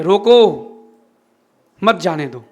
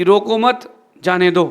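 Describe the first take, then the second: First: "रोको" alone, long silence, "मत जाने दो" together; pause after रोको. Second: "रोको मत" as one phrase, then "जाने दो"; loud "रोको मत", short pause, "जाने दो"; pause after मत. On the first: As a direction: break hard after रोको, join मत to जाने दो. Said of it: "उसने कहा ठीक है". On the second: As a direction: join मत to रोको, brief break, then जाने दो. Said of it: "राजा कहता है कि बोर्ड लिखवा करके". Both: Retold or imitated.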